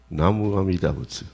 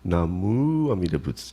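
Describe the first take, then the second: First: The syllable mu carries no special emphasis. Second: The syllable mu carries strong emphasis. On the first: The speaker calls it right. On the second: The speaker calls it wrong. "you're putting the emphasis on the mu"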